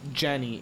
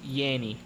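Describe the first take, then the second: First: The name begins with a J sound. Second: The name begins with a Y sound. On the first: The speaker calls it wrong. "it's not Jenny" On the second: The speaker calls it right. "it's Yanny"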